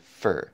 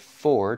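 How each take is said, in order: First: The word has a weak, reduced vowel. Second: The word has a full, clear vowel. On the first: "turns into fur" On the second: "for turns into"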